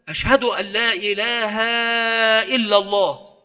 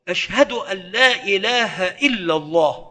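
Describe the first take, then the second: First: A vowel is stretched where it should not be. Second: Each vowel keeps its normal length. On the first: The speaker calls it wrong. "يمد ما لا يمد" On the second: The speaker calls it right. "وإنما هي هاء منصوبة فينبغي أن تعطى حقها"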